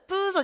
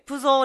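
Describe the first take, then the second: First: The first syllable has the long vowel. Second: The second syllable has the long vowel. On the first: The speaker calls it wrong. "プーゾじゃなくて" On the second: The speaker calls it right. "プゾーねって来てる"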